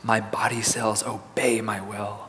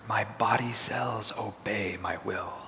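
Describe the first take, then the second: First: It is said in a quiet, soft voice. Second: It is said in a whisper. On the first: "let's say in a soft voice" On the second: "And now in a whisper"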